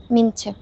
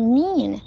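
First: Mean to with mean cut short and lost; mean to squashed with no stress; swallowed word. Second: Mean said fully with a long vowel; stressed, clearly stretched mean; clear, full word. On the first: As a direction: mimic a swallowed mean before to. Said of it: "然后把那个mean就没了". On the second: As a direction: give mean its full weight. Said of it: "你就要把它读清楚". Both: Shown as a demonstration.

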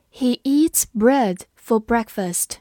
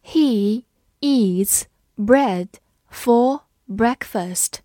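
First: Said in the usual way. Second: Slow, word by word, pause after each; stretched-out words with clear gaps; slow read-along. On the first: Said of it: "慢读一遍". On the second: Shown as a demonstration. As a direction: read slowly for learners to follow. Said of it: "跟着我慢读一遍".

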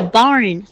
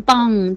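First: "barn" with clear ar closing on n; correct r and n. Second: "bang" with ng and no r, in place of barn; wrong nasal ending. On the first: Teacher corrects Anna's word, clear r and n. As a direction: sound the r in "barn", finish on n. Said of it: "到了那个barn". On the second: Teacher imitates Anna's mistake, wrong ng ending. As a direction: lose the r and close on ng in "bang". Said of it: "你就发成bang就错了". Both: Shown as a demonstration.

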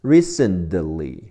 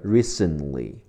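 First: "Recently" with the t turned into a de sound; t softened to d. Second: "recently" with a silent t; t dropped. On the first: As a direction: say "Recently" slowly as "ree-sen-duh-lee". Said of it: "recent的t 会变成的". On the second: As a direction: say "recently" as "ree-sen-lee". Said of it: "或者省去". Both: Shown as a demonstration.

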